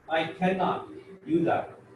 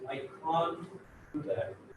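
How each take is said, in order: First: The word is said in full, cannot. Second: The word is shortened to one syllable, can't.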